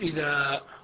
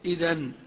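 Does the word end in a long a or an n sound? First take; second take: long a; n sound. First: The word ends with a long a. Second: The word ends with an n sound. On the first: The speaker stops at this word. "وفي الوقف إذا انقلبت إلى ألف" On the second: The word is joined to the words that follow. "عند الوصل"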